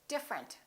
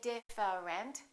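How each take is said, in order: First: The middle 'e' is dropped. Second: The middle 'e' is pronounced. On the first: The speaker calls it right. "We say different. The E disappears" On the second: The speaker calls it wrong. "We don't say different"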